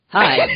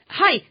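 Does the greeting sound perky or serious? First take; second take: serious; perky. First: The greeting sounds overly grave and serious. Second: The greeting sounds overly cheerful and perky.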